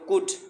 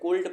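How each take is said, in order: First: The L sound is left silent in the word. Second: The L sound is pronounced in the word. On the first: The speaker calls it right. "इसमें एल silent है" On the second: The speaker calls it wrong. "अक्सर बच्चे इसे कुल्ड पढ़ देते हैं"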